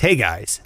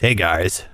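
First: It is said in the speaker's ordinary voice. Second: It is said in a lowered, deeper voice. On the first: "that is your voice" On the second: "You have a lower voice than me"

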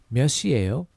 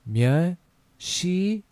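First: It is said fast. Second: It is said slowly.

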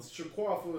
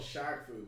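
First: An extra syllable is inserted in the middle. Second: No extra syllable is inserted in the middle. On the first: This is the mistaken childhood pronunciation. The speaker calls it wrong. "Shaquafu is how we pronounce it when we were kids" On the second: This is the actual name. The speaker calls it right. "It's actually called Shaqfu"

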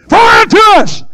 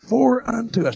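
First: It is shouted with loud preaching energy. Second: It is read calmly and plainly.

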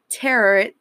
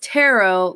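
First: It ends with an 'ut' sound, like carrot. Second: It ends with an 'oh' sound, like sparrow. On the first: The speaker calls it wrong. "not tarot, like you pronounce carrot" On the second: The speaker calls it right. "It's pronounced tarot, like how you say sparrow"

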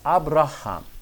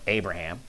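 First: It is said in a different accent. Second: It is said in the speaker's own accent.

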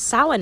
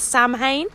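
First: The word is said in a way unlike its spelling. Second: The word is said following its spelling letter by letter. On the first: The speaker calls it right. "but it's Samhain apparently" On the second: The speaker calls it wrong. "it's read or spelled as Samhain"

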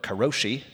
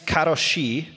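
First: It is said with an American-style pronunciation. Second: It is said with a Japanese-style pronunciation.

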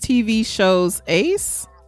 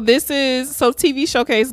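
First: The last part is split as shows ace. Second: The last part is run together as showcase. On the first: The speaker calls it right. "It's TV Shows Ace" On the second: The speaker calls it wrong. "I'm saying this wrong"

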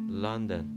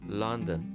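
The two takes are said the same way.

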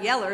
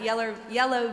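First: The word ends with an 'er' sound. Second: The word ends with an 'oh' sound.

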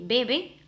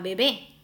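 First: The stress is on the first syllable. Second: The stress is on the second syllable. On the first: It means someone drinks. "B-E-B-E, de mira cómo beben los peces en el río" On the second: It means an infant. "la cual lleva tilde"

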